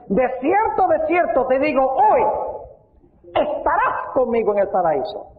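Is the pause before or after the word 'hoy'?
after. The pause comes after the word hoy.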